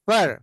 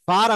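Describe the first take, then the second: First: The vowel is short and reduced, like fur. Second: The vowel is long and open, like far. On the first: The speaker calls it right. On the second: The speaker calls it wrong. "దీన్ని ఫార్ అంటారు చాలా మంది. ఫార్ అనకూడదు"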